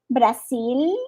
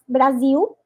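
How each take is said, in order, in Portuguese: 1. A palavra termina com um L bem claro. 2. A palavra termina com um som de vogal parecido com U. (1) "é L mesmo" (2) "e não Brasil, não é com U"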